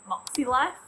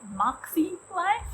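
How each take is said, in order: First: It is said with an Australian accent. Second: It is said with an American accent.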